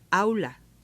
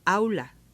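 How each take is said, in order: First: The opening j sound is dropped. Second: The same.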